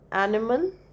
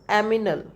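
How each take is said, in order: First: The n sound comes before the m sound. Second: The m sound comes before the n sound. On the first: The speaker calls it right. "say uh, uh, animal" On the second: The speaker calls it wrong. "he speaks aminal"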